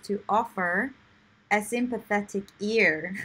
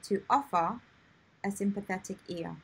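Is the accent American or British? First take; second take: American; British. First: It has an American accent with the final R sounded. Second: It has a British accent with the final R dropped. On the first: "she has the the American um, accent, so she says" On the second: "if you prefer to have the British accent, you say"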